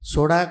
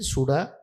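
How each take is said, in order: First: The first vowel is an 'o' sound. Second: The first vowel is a 'u' sound. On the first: This is how most speakers say it. "ସେମିତି ସୋଡ଼ା କହିବେନି" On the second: This is how southern-region speakers say it. "ସୁଡ଼ା ସେମାନେ କହିବେ"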